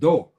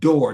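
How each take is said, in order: First: The word is said with an African-influenced accent. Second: The word is said in a standard American way. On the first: "they said door" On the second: "They didn't say door"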